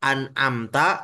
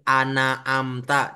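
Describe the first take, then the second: First: The n has no vowel after it. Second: The n is followed by an a vowel. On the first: The speaker calls it right. "harusnya kan an" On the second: The speaker calls it wrong. "tapi jadi harokat fathah, nggak boleh"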